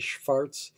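The name is said with a German pronunciation. "If you're more a German speaker, you might say Schwarz"

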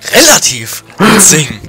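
The word relativ is said with strong emphasis.

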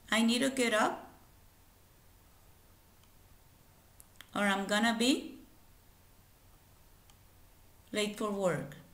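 The sentence is split into two separate parts. "la pronunciación de la oración por partes"

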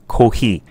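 The word is said with Japanese pronunciation. The speaker calls it right. "That's the way to say it in Japanese"

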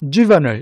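It is said with an American pronunciation. "주로 미국에서는 juvenile 이렇게 읽어주고요"

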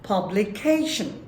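It is said with one syllable pitched high. The speaker calls it right. "সিলেবলের একটা অংশ high স্কেলে উচ্চারিত হবে"

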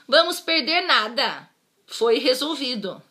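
There is a pause right after 'nada'. We won't lose anything; it was solved. "Mas se eu colocar a vírgula em outra posição"

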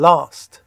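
The vowel is a long open 'aa' sound. "این یکی صدای آی بلنده"

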